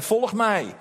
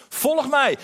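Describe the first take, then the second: First: Said in the usual way. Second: Higher and louder "Volg mij", pressed on "mij"; "Volg mij" lifted and pushed out louder; emphatic call. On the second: Acted. Jesus calls disciples, repeated.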